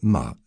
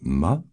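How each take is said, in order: First: The pitch falls sharply from high to low. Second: The pitch stays high and level. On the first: It means to scold. "la tonalité descendante" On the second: It means mother. "prononcée avec la première tonalité stable"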